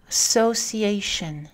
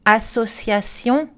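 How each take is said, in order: First: "association" slowly in English, stress on A of -ation; English "association", falling; English word stress. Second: "Association" slow and even, in French; French "Association", every vowel full, rising end; French even syllables. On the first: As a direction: say associ-A-tion with reduced last syllable. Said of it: "en anglais dans la colonne de droite". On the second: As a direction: say "A-sso-cia-tion" with equal energy. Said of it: "Les exemples en français". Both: Shown as a demonstration.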